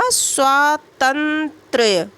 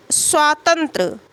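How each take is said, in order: First: स्वातंत्र्य stretched very slowly, the closing त्र्य cluster spelled out; correct form drawn out. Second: स्वातंत्र said slowly, ending on a short open ra sound with no final ya; wrong form shown. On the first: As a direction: drag out स्वातंत्र्य so students hear the final य. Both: Shown as a demonstration. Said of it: "स्वातंत्र नहीं बल्कि क्या होगा".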